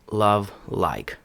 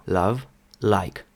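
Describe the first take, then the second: First: Love and like with a dark American l; American-accented love, like; American pronunciation. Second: Love and like with a light, soft British l; British-accented love, like. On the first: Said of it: "Американець би сказав". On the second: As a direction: model love, like with a gentle clear l. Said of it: "Розглядаємо британський варіант". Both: Shown as a demonstration.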